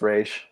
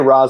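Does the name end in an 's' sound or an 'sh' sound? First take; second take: sh; s. First: The name ends with an sh sound. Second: The name ends with a plain s sound. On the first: This is the correct original pronunciation. "even though I know it's Raish" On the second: This is the familiar everyday pronunciation. "I say Ra's al Ghul"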